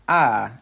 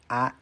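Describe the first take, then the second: First: The vowel starts high and falls in pitch. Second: The vowel is short with no pitch change. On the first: "as well as a high tone" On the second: "the vowels that are relatively similar to Spanish"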